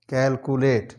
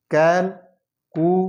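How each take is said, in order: First: Said in the usual way. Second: Slow syllable drill. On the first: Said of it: "normal reading after drill". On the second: Shown as a demonstration. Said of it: "syllable drilling".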